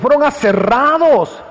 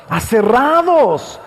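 First: Said in the usual way. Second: Aserrados drawn out slowly, syllable by syllable; slow emphasis. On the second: Shown as a demonstration. Preacher stressing the martyrs' torture, slow emphasis. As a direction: let aserrados sink in slowly.

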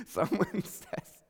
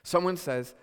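First: Real laugh breaking into the words, drawn out. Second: Said in the usual way. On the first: Real, not acted. Pastor laughing at his own word crap, real laugh. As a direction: crack up mid-sentence. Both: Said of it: "I'm laughing because".

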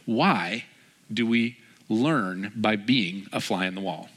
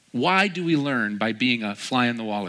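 First: Slow, deliberate question. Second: Said in the usual way. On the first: Real, not acted. Poses sermon's key question, then repeats.

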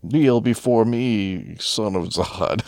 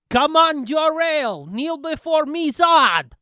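First: Very slow, grand villain command; hammed-up Zod decree, dragged out; slow theatrical villain menace. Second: High, loud mocking villain challenge; mock villain taunt. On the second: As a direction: ham up a sneering comic villain. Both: Quoting Zod villain line.

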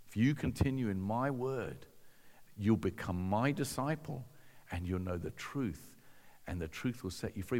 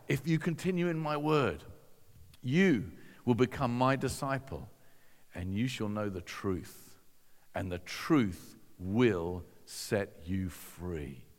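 First: Low, soft, reflective recital; musing over the verse, hushed; quiet pondering repeat. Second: Measured recital with long pauses, sinking low; slow right down on the final promise; grave, deliberate scripture quote, falling at the end; solemn quotation. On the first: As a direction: lower your voice and let it quicken at the end. Repeats the quote to himself, pondering. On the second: Quotes Jesus' words solemnly, first take. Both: Retold or imitated.

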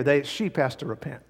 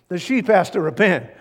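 First: Said in the usual way. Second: The sheep has to repent, louder and higher with SHEEP hit hard; emphatic repeat. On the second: Shown as a demonstration. Preacher insists to the congregation, emphatic.

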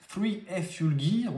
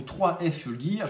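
First: "three F Fuel Gear" said the English way; American pronunciation. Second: "trois F Fuel Gear" said the French way; French pronunciation. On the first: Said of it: "à l'américaine". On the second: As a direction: say "trois" in French, brand name with a French accent. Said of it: "plutôt à la française". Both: Shown as a demonstration.

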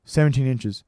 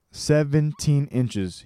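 First: Said in the usual way. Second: Slow, higher, drawn-out call; slow bellowed confirmation; bellowing. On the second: A narrator's reading. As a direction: draw each word out to the back wall. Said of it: "his voice bellowing off the walls".

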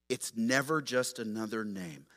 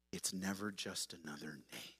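First: Said in the usual way. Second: Hushed. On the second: Shown as a demonstration. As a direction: drop to a near hush on "never".

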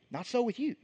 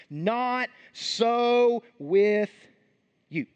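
First: Said in the usual way. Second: Drawn-out, stressed "Not so with you"; slow, weighty "Not so with you"; slow emphatic. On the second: Shown as a demonstration. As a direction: stretch "Not so with you" out slowly, pressing each word. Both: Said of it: "Jesus says in verse forty-three".

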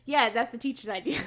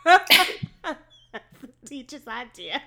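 First: Giggling through the words; laughing. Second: Slow, louder laughing repeat; laughing harder. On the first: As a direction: laugh while you say it. Laughing at the plot. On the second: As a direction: break up laughing on it. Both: Real, not acted.

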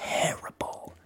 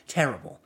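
First: Whispered, voiceless groan of a word; breathy dismay. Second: Said in the usual way. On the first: Real, not acted. Player despairing at his bad opponent, whispered dismay.

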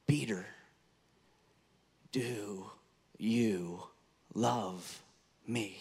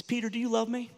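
First: "Peter, do you love me" with long pauses between the words, said low and soft; slow, word by word. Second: Asked higher, a tender searching question; a higher voice, an open, earnest question; raised gentle question. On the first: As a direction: lay each word down slowly and softly. Jesus asks Peter the third time. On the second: Jesus asks Peter the first time. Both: Acted.

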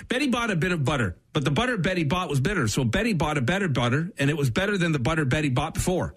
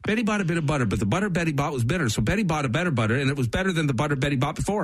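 First: Quick, clean run at the tongue twister; fast tongue twister. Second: Sprint through it, laughing; fast tongue twister run with a laugh; faster, laughing run. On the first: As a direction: rattle it off fast. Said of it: "best I've heard you phrase anything". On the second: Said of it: "It's something with the B's". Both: Shown as a demonstration.

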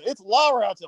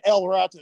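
First: "La Rata" stressed on La as the right form; correcting the article. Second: "El Rata" as the mistaken version; wrong article. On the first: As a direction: insist on "La Rata", leaning on La. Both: Retold or imitated.

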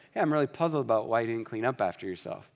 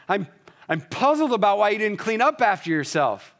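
First: Easygoing, no edge at all; gentle. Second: Sharp and much higher, louder, accusing; gentle words spat out harshly. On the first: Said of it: "Same words, very different meaning". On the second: Pastor showing a harsh tone with gentle words, sharp and loud. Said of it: "you can sound harsh while using gentle words". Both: Shown as a demonstration.

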